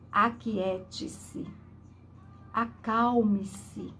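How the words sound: It sounds commanding and full of authority.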